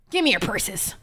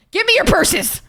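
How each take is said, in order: First: Lower, put-on gruff stick-up voice; mock robber voice. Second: Higher, mock robber demanding purses; playful robber demand. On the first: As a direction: growl it like a cartoon mugger, half-joking. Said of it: "Oh my God, that was cringe". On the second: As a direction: hold up the chat for their purses, playfully. Joking hold-up demand to chat.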